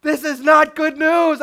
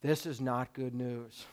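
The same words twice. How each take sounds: First: Higher, louder frustrated outburst; loud exasperation. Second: Low, soft, deflated mutter; quiet dismay. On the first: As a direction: throw up your hands in alarm. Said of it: "You're like". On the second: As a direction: sink into quiet disappointment. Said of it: "and you're going". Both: Retold or imitated.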